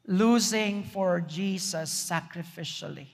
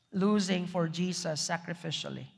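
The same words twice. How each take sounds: First: Losing for Jesus sacrificially said slowly, leaning on Losing; slow emphatic statement. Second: Losing for Jesus sacrificially repeated much softer. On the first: Announcing the sermon's second point, slow and emphatic. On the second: Repeating the point to the congregation, softer and lower. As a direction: let Losing for Jesus sacrificially sink in, quietly. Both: Shown as a demonstration.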